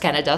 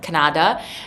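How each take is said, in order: First: It is said with an English pronunciation. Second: It is said with a Russian pronunciation. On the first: The speaker calls it right. "but actually I know it's Canada" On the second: The speaker calls it wrong. "we just pronounce it in Russian like Canada"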